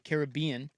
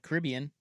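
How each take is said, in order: First: It begins like the name Carib. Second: It does not begin like the name Carib. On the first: The speaker calls it right. "it's Caribbean because it was the Carib tribe" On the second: The speaker calls it wrong. "or sorry"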